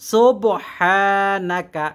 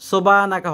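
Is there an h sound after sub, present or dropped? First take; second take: present; dropped. First: The h sound after sub is pronounced. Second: The h sound after sub is dropped. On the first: The speaker calls it right. "সোবহানাকা এমন হবে" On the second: The speaker calls it wrong. "সোবানাকা হবে না"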